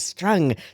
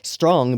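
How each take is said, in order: First: It is said in a strong Irish accent. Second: It is said in the speaker's plain accent.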